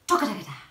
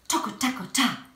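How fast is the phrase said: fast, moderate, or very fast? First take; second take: fast; moderate. First: The phrase is said at a faster pace. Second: The phrase is said at a moderate pace.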